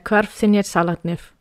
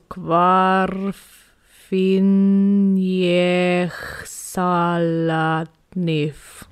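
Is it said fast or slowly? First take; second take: fast; slowly. First: It is said very fast. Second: It is said extremely slowly.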